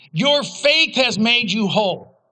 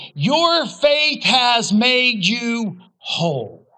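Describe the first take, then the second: First: Said in the usual way. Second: Slow, weighty blessing. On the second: Acted. Jesus to the healed woman, slow and weighty. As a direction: say each word slowly and deliberately.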